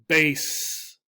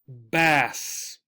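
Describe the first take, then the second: First: The vowel is a long A sound. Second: The vowel is a short A sound. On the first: It names a musical instrument. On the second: It names a kind of fish.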